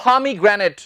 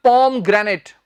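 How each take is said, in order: First: Pomegranate said as pahmi-granate; correct pronunciation. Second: Pomegranate said as pom-granate; wrong pronunciation. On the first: Teacher giving students the right form. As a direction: begin Pomegranate with pahmi, not pom. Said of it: "इसका सही उच्चारण है". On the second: Teacher showing the common mistake. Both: Shown as a demonstration.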